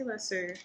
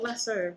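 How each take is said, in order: First: Lasso said "LASS-oo"; personal pronunciation. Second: Lasso said as spelled, "LASS-oh"; spelling pronunciation. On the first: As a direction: end lasso on "oo" rather than "oh". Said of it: "but I say lasso". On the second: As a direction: end lasso on a long "oh". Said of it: "It's spelled lasso". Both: Shown as a demonstration.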